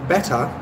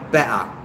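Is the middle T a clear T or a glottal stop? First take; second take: clear T; glottal stop. First: The middle T is clearly pronounced. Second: The middle T is a glottal stop. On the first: It sounds like upper-class standard British speech. "She would say better in a received pronunciation accent" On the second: It sounds like everyday London speech. "whereas I would say better because I'm from London"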